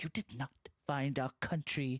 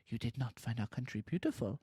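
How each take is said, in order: First: It is said in an angry, forceful way. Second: It is said in a light, jaunty way.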